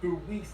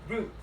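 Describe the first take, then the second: First: The word is said with a French-sounding pronunciation. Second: The word is said with an English-sounding pronunciation. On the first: The speaker calls it wrong. "I used to pronounce this as bruit" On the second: The speaker calls it right. "until I learned it's brute"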